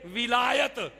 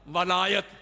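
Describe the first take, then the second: First: The first syllable has the vowel 'i'. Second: The first syllable has the vowel 'a'. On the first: It means caliph or leader. "वाओ के नीचे कसरा जेर विलायत" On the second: It means lordship, being a lord. "वाओ के ऊपर जबर डाल दे वलायत"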